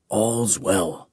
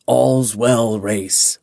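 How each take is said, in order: First: Soft whisper. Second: Said in the usual way. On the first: Acted. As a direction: lower and much softer whisper. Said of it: "he whispered". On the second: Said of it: "He smiled gently".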